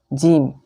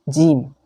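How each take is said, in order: No difference in how they are said.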